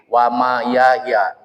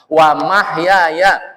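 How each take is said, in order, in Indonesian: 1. Kata itu diucapkan tanpa bunyi h. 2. Kata itu diucapkan dengan bunyi h. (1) "karena bacanya enggak benar" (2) "bukan wa mayahya"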